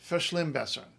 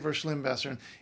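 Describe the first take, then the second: First: The first sound is a voiceless f. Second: The first sound is a voiced v. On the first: The speaker calls it right. "note the V is always f in German" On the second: The speaker calls it wrong. "You don't say"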